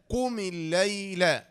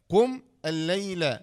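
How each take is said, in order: First: Drawn-out "قم الليل" as qumi-llayla, one unit; linked slow recitation. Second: "قم" stopped on m, then "الليل" apart; separated words. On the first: Teacher completing the spelling, slow joined "قم الليل". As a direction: run "قم" into "الليل", holding the doubled l. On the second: Teacher contrasting the word forms, slow "قم" and "الليل" unlinked. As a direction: break after "قم", start "الليل" afresh. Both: Shown as a demonstration. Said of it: "كل اللي في الوسط هذا لا ينطق".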